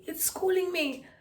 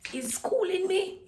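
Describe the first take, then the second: First: High, strained, louder put-on squeak; squeaky high voice. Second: High, slow put-on squeak; squeaky high voice. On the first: Vlogger repeating her school complaint in a high squeak. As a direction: say it again in that tiny pinched voice. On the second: Vlogger complaining about school in a silly high voice. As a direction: squeeze it up into a tiny high voice. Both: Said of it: "I kinda like my voice like this".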